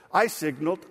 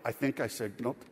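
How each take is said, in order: First: Assertive, matter-of-fact; confident claim. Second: Softer, lower second thought; doubtful aside. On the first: Driver insists on having signaled, confident claim. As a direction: state it firmly and clearly. First claim, then doubting aside. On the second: Driver doubts his own signaling, doubtful aside. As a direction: back off it quietly. Backs off the first claim. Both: Acted.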